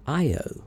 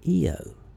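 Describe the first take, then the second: First: The word begins with an 'eye' sound. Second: The word begins with an 'ee' sound. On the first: "Some call one of Jupiter's moons Io" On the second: "I believe Eo is a more correct pronunciation"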